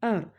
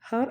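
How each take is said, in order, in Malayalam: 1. വാക്ക് നേരിട്ട് ഒരു സ്വരാക്ഷര ശബ്ദത്തിലാണ് തുടങ്ങുന്നത്. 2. വാക്ക് വ്യക്തമായ h ശബ്ദത്തിലാണ് തുടങ്ങുന്നത്. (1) "എച്ച് സൈലന്റ് ആണ്" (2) "ഹർ എന്ന് പറയില്ലല്ലോ"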